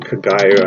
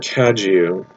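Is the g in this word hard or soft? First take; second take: hard; soft. First: The g is hard, like in go. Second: The g is soft, almost like a j. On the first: The speaker calls it wrong. "It could be Kagayu. I don't think it is" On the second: The speaker calls it right. "Is it soft G? Kaju. ... It's almost like a D too"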